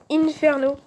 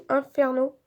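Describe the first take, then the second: First: "Inferno" in the first of two pronunciations; first pronunciation option. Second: "Inferno" slower, pronounced the other way; alternative pronunciation. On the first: Telling viewers the name she uses, first pronunciation of "Inferno". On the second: Unsure of the name, offering viewers an alternative pronunciation of "Inferno". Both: Shown as a demonstration. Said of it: "je sais pas comment on peut le dire".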